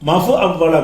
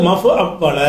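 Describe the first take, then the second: The two takes are said the same way.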